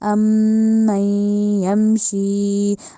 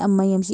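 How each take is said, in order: First: The m and n are held with nasal hum. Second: The m and n are short, without nasal hum. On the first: The speaker calls it right. "दोनों में नाक में बांस लेके जानी है" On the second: The speaker calls it wrong. "ऐसे नहीं कह देना"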